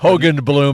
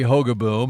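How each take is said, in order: First: The name is said as Hogan Bloom, with added sounds. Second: The name is said as Hogaboom, without extra sounds.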